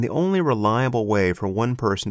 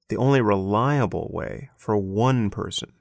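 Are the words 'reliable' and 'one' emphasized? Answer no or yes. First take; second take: no; yes. First: Reliable and one get no special emphasis. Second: Reliable and one are said with strong emphasis.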